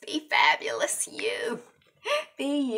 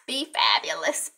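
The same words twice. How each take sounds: First: Whispered sign-off, voice dropped to breath. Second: Said in the usual way. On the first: Shown as a demonstration. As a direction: whisper it like a secret to the viewer.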